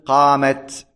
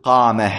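First: The word ends with a t sound. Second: The word ends with an h sound. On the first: The speaker calls it right. "تاء التأنيث إذا كانت ساكنة تبقى على حالها لا تتغير، فتقول قامت" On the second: The speaker calls it wrong. "ولا تقول قامه وجاءه، هذا خطأ"

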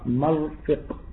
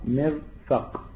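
First: The first vowel is a, the second i. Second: The first vowel is i, the second a. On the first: "بفتح الميم وكسر الفاء" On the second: "أو بالعكس"

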